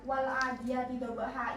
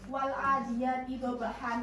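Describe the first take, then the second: First: The last word ends with a plain vowel. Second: The last word ends with an n sound. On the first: "dibaca wal adiyati dobaha, ini seharusnya fathah, bukan fathah tain lagi" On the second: "kan ini menggunakan fathah tain ya"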